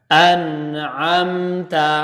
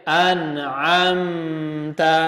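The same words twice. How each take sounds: The two takes are said the same way.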